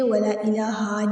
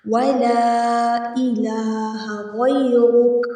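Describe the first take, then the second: First: ولا الہ with the final ا after ہ wrongly drawn out; faulty long ha in الہ; wrong stretched ha. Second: الہ with a short vowel after ہ, slowly recited. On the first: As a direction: overstretch the end of الہ, as the mistake. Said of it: "نہیں کریں گے". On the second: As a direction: keep the ہ in الہ short and move on to غیرک. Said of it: "اس کو ہم کھینچیں گے نہیں". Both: Shown as a demonstration.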